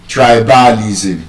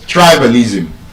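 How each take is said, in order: First: The stress is not on the first syllable. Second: The stress is on the first syllable. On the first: The speaker calls it wrong. "that word is not" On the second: The speaker calls it right. "those words are stressed on the first syllable"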